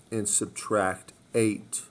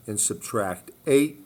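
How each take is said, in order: First: Slowly stressing each word; slow, deliberate repeat. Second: Said in the usual way. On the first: Shown as a demonstration. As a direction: spell it out slowly for students.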